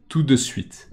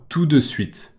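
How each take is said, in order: Both takes have the same delivery.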